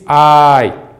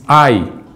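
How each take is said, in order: First: The a is long and the i is brief. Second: The a is short and the i is full. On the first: "o iota, ele tem pouco tempo ... enquanto que o alfa tem mais tempo" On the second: "a duração do A, do alfa, é menor, porque tem que ter a duração do iota"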